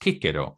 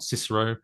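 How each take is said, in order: First: The first C sounds like a K. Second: The first C sounds like an S. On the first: The speaker calls it right. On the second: The speaker calls it wrong.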